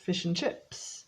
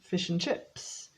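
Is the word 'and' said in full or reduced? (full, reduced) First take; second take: reduced; reduced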